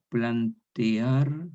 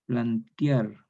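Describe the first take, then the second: First: "plantear" drawn out very slowly, plan-te-ar; careful hiatus. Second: "plantear" as plan-tiar, e turned into a glide; popular Chilean. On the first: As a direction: stretch "plantear" syllable by syllable. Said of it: "Por ejemplo". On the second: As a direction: say "plantear" like Chilean everyday speech. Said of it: "castellano chileno popular". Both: Shown as a demonstration.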